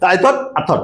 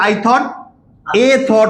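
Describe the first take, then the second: First: The article is said as a weak 'uh'. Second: The article is said as a full 'ay'. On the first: The speaker calls it right. "শোয়া আ" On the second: The speaker calls it wrong. "I thought এ thought হবে না"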